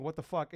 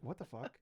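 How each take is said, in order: First: Mild mock yell, barely raised; retold scream. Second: Softly, almost to himself; retold quiet disbelief. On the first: Podcaster retelling the repeated outburst at trade alerts, mild mock scream. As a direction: recount the scream without fully yelling. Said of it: "I just kept screaming". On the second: Podcaster recalling first seeing the watch alert, hushed disbelief. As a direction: drop the volume for a stunned private reaction. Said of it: "I didn't say anything".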